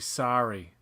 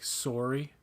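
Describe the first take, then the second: First: It is said with an American accent. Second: It is said with an Ontario accent. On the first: "You have to say sorry" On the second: "In Ontario and in most other places in Canada, it's more like sorry"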